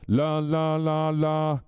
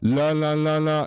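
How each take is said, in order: First: The voice sounds clean with full bass and treble. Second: The voice sounds distorted and crackly. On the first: The speaker calls it right. "same volume, and I'm not distorting" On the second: The speaker calls it wrong. "Do you hear that? Hear that? Oh, that distortion"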